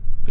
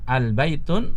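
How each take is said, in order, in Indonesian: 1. Kata ini diakhiri dengan vokal, tanpa n. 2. Kata ini diakhiri dengan bunyi n tambahan. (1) "Yang benar adalah"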